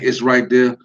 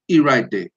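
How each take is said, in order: First: The opening word is said fully as 'it's'. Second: The opening word is reduced to a bare 'e'. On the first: "instead of saying it's right there" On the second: "we'll just say e right there"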